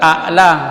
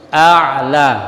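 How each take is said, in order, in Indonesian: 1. Konsonan tengahnya adalah hamzah. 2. Konsonan tengahnya adalah ain. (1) "tapi bukan a'la. Jangan hamzah dengan hamzah" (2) "ain di tengah tenggorokan"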